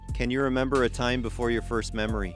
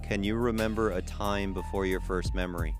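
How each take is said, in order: First: It is said at a normal speed. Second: It is said more slowly.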